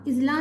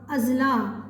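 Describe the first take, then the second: First: इजला said ijla with a short i at the start; wrong pronunciation. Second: अजला said ajla with a short a at the start; correct pronunciation. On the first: Teacher showing students the wrong ijla. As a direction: show the mistake: i-jla. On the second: Teacher giving students the correct ajla. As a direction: open a, then ajla. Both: Shown as a demonstration. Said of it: "इजला नहीं होता".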